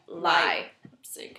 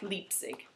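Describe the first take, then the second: First: The first vowel sounds like 'eye'. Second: The first vowel sounds like 'ee'. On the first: The speaker calls it right. "so it would be Li" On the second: The speaker calls it wrong.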